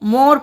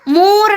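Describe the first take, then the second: First: The vowel is plain without extra length. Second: The vowel is drawn out and pressed hard. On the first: The speaker calls it right. "मोर पढ़ रहे हैं" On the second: The speaker calls it wrong. "मोर नहीं पढ़ रहे हम"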